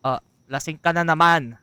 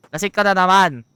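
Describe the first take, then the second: First: Said in the usual way. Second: Louder, higher scolding repeat. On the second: Real, not acted.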